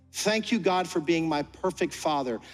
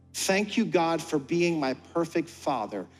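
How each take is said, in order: Both takes have the same delivery.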